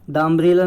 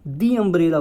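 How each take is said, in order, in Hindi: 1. 'The' को छोटी 'thuh' ध्वनि के साथ बोला जाता है। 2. 'The' को लंबी 'thee' ध्वनि के साथ बोला जाता है। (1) "द अम्ब्रेला ना बोलेंगे" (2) "दी अम्ब्रेला बोलेंगे"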